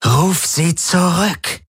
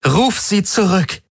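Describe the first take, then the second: First: High, slow, drawn-out command; insistent order. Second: Very high, slow desperate order; trembling desperation. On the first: Ylana ordering Galen, insistent drawn-out command. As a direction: stretch out each word as a demand. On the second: Ylana cornered, last order to Galen, trembling desperation. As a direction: let distress show through the command. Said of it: "Jetzt hörte er das Zittern in ihrer Stimme". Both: A narrator's reading.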